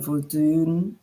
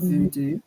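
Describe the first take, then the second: First: The word ends with an n sound. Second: The word ends with an oo vowel. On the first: The speaker calls it right. "So that would be like Vodun in Haiti" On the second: The speaker calls it wrong. "That is like incorrect"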